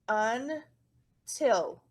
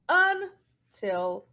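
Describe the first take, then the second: First: The stress is on the second syllable. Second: The stress is on the first syllable. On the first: The speaker calls it right. "the accent mark goes at the end" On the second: The speaker calls it wrong. "It's not until"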